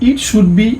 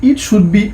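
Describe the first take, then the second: Both takes have the same delivery.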